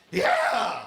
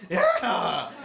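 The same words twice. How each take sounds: First: Sudden high, loud yelp of triumph; hammed-up victory yell, way up high; Howard Dean scream. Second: Mock triumphant yelp, high and loud; Howard Dean scream. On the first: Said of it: "he went on T V and he was like". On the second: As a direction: blurt a hammed-up victory yell. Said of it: "and he's like".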